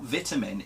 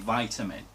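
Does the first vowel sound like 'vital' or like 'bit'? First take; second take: like bit; like vital. First: The first vowel is short, as in 'bit'. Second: The first vowel is long, as in 'vital'. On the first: The speaker calls it wrong. "It's not vitamin" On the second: The speaker calls it right. "it is actually vitamin ... like vitality ... vital signs"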